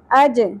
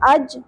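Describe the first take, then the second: First: The final j is released with a bounce. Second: The final j is plain, without a bounce. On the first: The speaker calls it right. "جیم ساکن پہ قلقلہ ہوگا" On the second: The speaker calls it wrong. "اج نہیں پڑھنا"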